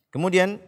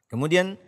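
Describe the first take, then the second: Both takes have the same delivery.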